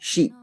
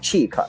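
First: It begins with a soft sh sound. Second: It begins with a ch sound, like cheek. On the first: The speaker calls it right. "读成chic" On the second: The speaker calls it wrong. "有同学可能顺着读下来读成cheek 啊，但是不是的"

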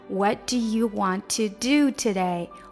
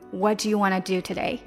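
First: The sentence is said slowly and fully. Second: The sentence is said fast and reduced.

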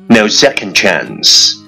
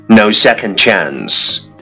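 The two takes are said the same way.

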